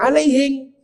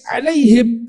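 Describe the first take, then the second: First: It is said with a Bugis accent. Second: It is said with standard pronunciation.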